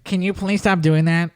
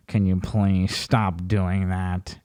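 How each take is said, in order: First: Said in the usual way. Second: Low, slow, pleading mock voice; whiny VR user. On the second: VR user begging a troll to stop, slow low plea. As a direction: drag it out like a wounded gamer.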